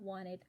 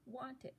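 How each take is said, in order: First: It is said in an American accent. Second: It is said in a non-American accent.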